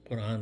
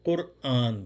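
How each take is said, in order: First: The word is said quickly, with syllables run together. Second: The word is said fully, with a break before the long vowel. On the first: The speaker calls it wrong. "तेज़ी से बोलने में कुरान कुरान बोलते हैं, कुरान नहीं बोलेंगे" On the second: The speaker calls it right. "कुरआन बोलेंगे"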